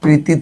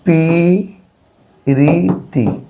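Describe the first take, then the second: First: The first two consonants form a cluster. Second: A vowel separates the first two consonants. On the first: "প্রীতি থেকে" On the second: "স্বর আসলে স্বরাগম"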